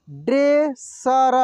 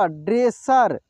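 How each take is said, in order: First: dresser drawn out slowly, syllable by syllable; slow sounding out. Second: Said in the usual way. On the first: Shown as a demonstration. Teacher slowly sounds out dresser for students. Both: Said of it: "एक एक मात्रा को अलग अलग करके".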